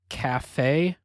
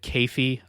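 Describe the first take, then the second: First: The name is said in a Japanese-like way. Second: The name is said in an anglicized way. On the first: The speaker calls it right. "I would guess it's cafe" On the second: The speaker calls it wrong. "when I was a kid I said Keifi. I'm sure that's not the pronunciation"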